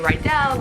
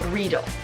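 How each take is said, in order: First: The word does not rhyme with needle. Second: The word rhymes with needle. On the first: The speaker calls it wrong. "We want to say Riedel" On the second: The speaker calls it right. "it's like needle, but with an R"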